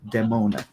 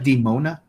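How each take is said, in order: First: The first syllable sounds like the word 'dead'. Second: The first syllable does not sound like 'dead'. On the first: The speaker calls it right. "like Dead Mona" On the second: The speaker calls it wrong. "not Demona"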